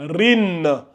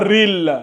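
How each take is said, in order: First: The syllable ends with an n sound. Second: The syllable ends with an l sound. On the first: The speaker calls it right. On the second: The speaker calls it wrong. "Pas ril"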